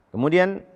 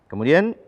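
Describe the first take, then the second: No difference in how they are said.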